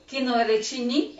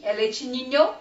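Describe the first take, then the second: First: "leite ninho" clipped as "leite ni"; final syllable of "ninho" dropped, as "ni"; wrong form. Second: "ninho" said in full as "niɲo"; full "ninho" with clear final "nho"; correct form. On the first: Teacher showing the wrong clipped "ninho" to a class. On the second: Teacher giving the correct "ninho" to a class. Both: Shown as a demonstration. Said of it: "Então, o leite ninho".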